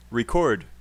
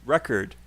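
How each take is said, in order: First: Record, second syllable stressed; stress on CORD. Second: Record, first syllable stressed, slow. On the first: Teacher contrasting stress in record, CORD stressed. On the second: Teacher contrasting stress in record, REC stressed slowly. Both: Shown as a demonstration. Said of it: "what's another one?".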